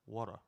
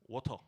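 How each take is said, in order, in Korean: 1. 미국식 발음으로 말합니다. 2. 영국식 발음으로 말합니다. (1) "영어식 발음으로는" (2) "영국식 발음이죠"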